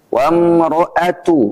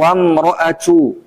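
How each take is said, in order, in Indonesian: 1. Bunyi t di akhir tegas dan kuat. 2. Bunyi t di akhir berdesah, hampir seperti ch.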